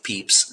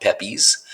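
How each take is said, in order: First: Pepys said as one syllable, "peeps"; correct pronunciation. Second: Pepys misread as two syllables, "PEP-eez"; wrong pronunciation. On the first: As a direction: say Pepys to rhyme with keeps. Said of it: "His name is pronounced Pepys". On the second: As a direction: say Pepys like "peppies". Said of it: "pronounced Pepys, not Pepys". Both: Shown as a demonstration.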